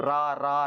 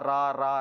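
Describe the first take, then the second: The two takes are said the same way.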